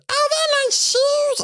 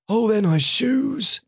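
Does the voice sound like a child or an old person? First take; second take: child; old person. First: It is said in a child's voice. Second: It is said in an old person's voice.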